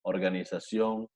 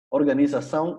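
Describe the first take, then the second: First: Organización, slow and low, ending in "on"; Spanish -on ending. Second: Organización louder, ending in nasal "saun"; Portuguese nasal -ão. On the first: Teacher lists Spanish examples, organización ending in "on". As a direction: say organización the Spanish way, final "sión". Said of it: "en español en on". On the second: Teacher models Portuguese singular, Organización ending in nasal "aun". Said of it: "terminan en aun en portugués". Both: Shown as a demonstration.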